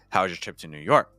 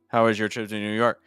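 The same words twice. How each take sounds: First: Pitch starts high, steps down, then jumps up. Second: The pitch stays within two or three levels. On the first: "I start a little higher, I keep going down, ... and then on New York I go up high again" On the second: "If I only use like two or three pitches"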